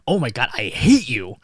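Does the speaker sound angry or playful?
angry. It is shouted in an angry tone. The speaker really means it. "somebody just shouting at someone"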